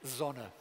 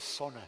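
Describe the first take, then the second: First: The first sound is a voiced z. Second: The first sound is a voiceless s. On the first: This is the standard form used by a minority. "the minority pronunciation is the standard" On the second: This is the form most people use. "The majority pronunciation is sona. People devoice the initial z"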